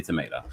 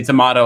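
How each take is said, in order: First: "tomato" with an AY in the middle; American pronunciation. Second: "tomato" with a broad AH in the middle; alternative pronunciation. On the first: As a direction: say "tomato" as to-MAY-to. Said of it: "I say tomato". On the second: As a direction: say "tomato" as to-MAH-to. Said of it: "you say tomato". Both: Shown as a demonstration.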